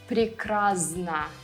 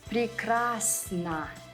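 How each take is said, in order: First: The consonant before n sounds like z. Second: The consonant before n sounds like s. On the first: The speaker calls it wrong. "A common mistake is to say" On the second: The speaker calls it right. "it would be correct to say ... sn, not zn"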